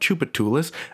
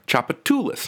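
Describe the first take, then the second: First: It is said the outsider, non-local way. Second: It is said the local New Orleans way. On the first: The speaker calls it wrong. "not Chupatoulis" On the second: The speaker calls it right. "saying the names of New Orleans street names"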